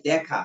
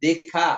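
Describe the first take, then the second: First: দেখা with plain এ as written; written form. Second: দেখা with open অ্যা, ড্যাখা; spoken form. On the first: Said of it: "আসলে দেখা নাকি দেখা". (লেখা অনুযায়ী দেখা) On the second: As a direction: say দেখা like দ্যাখা. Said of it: "শুদ্ধ করে উচ্চারণ করেন". (উচ্চারণে দ্যাখা) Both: Shown as a demonstration.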